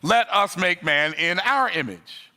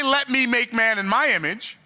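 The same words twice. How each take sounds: First: "Let us make man in our image" slow and weighty, landing on "our"; the true quote, slowed, leaning on "us" and "our"; slow, deliberate stress on "us" and "our"; right version. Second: "Let me make man in my image" pitched much higher, "me" and "my" stressed; the wrong line, raised high and pointed; wrong version. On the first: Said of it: "What did he say?". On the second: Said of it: "But he didn't say". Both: Shown as a demonstration.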